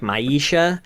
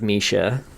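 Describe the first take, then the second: First: The first vowel sounds like 'eye'. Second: The first vowel sounds like 'ih'. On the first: "I was always pronouncing it like Maisha" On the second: "I think it probably is Misha"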